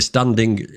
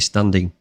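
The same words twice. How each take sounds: First: The word ends with a clear hard g sound. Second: The word ends softly without a hard g. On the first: "there's a little g on the end of standing. So I say standing" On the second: "they don't do that. They say standing"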